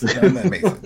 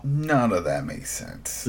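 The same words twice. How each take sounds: First: Pitched up and loud, exasperated; louder exasperated repeat. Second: Said in the usual way. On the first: Real, not acted. Co-host repeating his complaint, louder and exasperated. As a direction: hammer the line home in disbelief. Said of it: "repeats louder, higher". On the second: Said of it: "repeats with emphasis".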